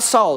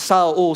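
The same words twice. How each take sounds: First: The name is said in its English form. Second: The name is said in its Aramaic form. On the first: The speaker calls it wrong. "it's not Saul" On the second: The speaker calls it right. "it's a transliteration of either Hebrew or Aramaic"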